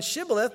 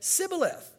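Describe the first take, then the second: First: The word begins with an sh sound. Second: The word begins with an s sound. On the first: "rather than Shibboleth" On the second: "they couldn't pronounce the SH sound"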